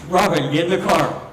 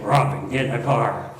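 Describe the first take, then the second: First: It is said in the speaker's normal voice. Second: It is said in a put-on Batman voice.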